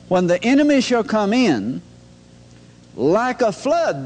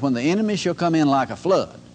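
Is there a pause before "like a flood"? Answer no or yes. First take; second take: yes; no. First: There is a pause before "like a flood". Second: It runs on without a pause before "like a flood".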